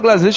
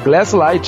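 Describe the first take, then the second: First: The name ends with a short 'lit' sound. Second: The name ends with a 'light' sound. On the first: This is how it is said locally. The speaker calls it wrong. "a gente fala Glaslit errado" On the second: This is the original form of the name. The speaker calls it right. "Mas é Glaslight"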